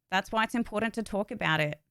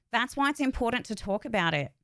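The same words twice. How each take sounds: The two takes are said the same way.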